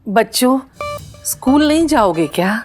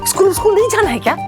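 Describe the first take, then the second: First: It is said sweetly and lovingly. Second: It is said harshly and sharply.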